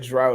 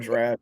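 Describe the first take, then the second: First: The vowel sounds like the one in 'out'. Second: The vowel sounds like the one in 'raft'. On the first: "You can say drought or draft" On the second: "You can say drought or draft"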